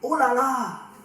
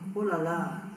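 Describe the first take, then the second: First: It is said with a tone of surprise. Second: It is said with a tone of pity. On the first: Something is astonishing. The speaker calls it wrong. "No, sorry. This is not a surprise" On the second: Something is sad news. The speaker calls it right. "maybe disappointment or pity, empathy, sympathy"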